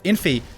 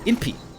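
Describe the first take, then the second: First: The middle consonant is an F sound. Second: The middle consonant is a P sound. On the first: "instead of infi" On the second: "they normally say inpi"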